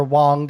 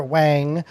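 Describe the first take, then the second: First: Wang with a back vowel, like Wong; alternative pronunciation of Wang. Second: Wang with a front vowel, rhyming with hang; first pronunciation of Wang. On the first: Host offering the other pronunciation of the designer's name, Wang said like "Wong". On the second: Host introducing designer Alexander Wang, Wang said like "hang". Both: Shown as a demonstration. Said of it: "depending on how you wanna pronounce it".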